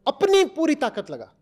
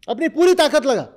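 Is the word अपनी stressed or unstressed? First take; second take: stressed; unstressed. First: The word अपनी is strongly stressed. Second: The word अपनी gets no special stress.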